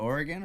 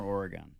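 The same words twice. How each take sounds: First: "Oregon" ending in a short "gun"; reduced last vowel in "Oregon"; Oregon pronunciation. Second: "Oregon" ending in a full "gone"; alternate Oregon pronunciation. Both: Shown as a demonstration. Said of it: "Is it Oregon or Oregon?".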